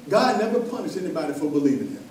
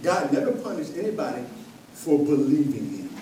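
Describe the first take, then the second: First: Said in the usual way. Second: "never" leaned on, pause before "for believing him"; stress on never. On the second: Shown as a demonstration. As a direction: repeat it with weight, pausing on "anybody". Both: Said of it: "Let me say that again".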